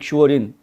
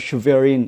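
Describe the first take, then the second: First: The name has a w-like glide inside. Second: The name has a clear v sound inside.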